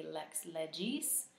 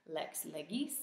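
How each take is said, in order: First: Legis with a soft g like j; ecclesiastical soft g. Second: Legis with a hard g as in get; classical hard g. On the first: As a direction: say legis LEH-jis, church Latin. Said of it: "ecclesiastical pronunciation would be lex legis". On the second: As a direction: say legis LEH-gis, hard g. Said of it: "ecclesiastical pronunciation would be". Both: Shown as a demonstration.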